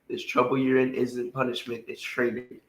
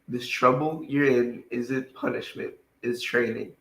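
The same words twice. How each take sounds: First: It is read at a fast pace. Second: It is read at a slower pace.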